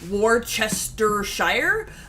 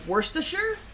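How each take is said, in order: First: Every letter of the first part is sounded. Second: The first part sounds like worse, then stir. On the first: The speaker calls it wrong. "it's not Worcestershire" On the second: The speaker calls it right. "the W O R C E is like worse, and then stir"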